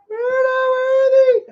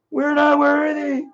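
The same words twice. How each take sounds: First: Much higher, slow squealed "We're not worthy"; Wayne's World squeal. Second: Said in the usual way. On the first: Retold or imitated. Streamer bowing to a departing viewer, high slow squeal.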